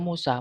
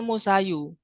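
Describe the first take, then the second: First: The word ends with a plain a sound. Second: The word ends with an added u sound. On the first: The case ending is only implied, not pronounced. The speaker calls it right. "tapi tetap dibaca Musa" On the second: The word shows its grammatical case ending openly. The speaker calls it wrong. "seharusnya kan musayu"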